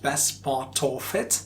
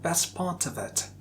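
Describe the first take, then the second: First: 'Of' is said with a full, strong vowel. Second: 'Of' is said with a reduced, weak vowel. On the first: The speaker calls it wrong. "you don't have to use strong form there" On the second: The speaker calls it right.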